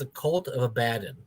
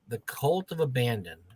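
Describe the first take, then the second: First: The name has no n sound before the d. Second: The name has an n sound before the d. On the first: The speaker calls it right. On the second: The speaker calls it wrong.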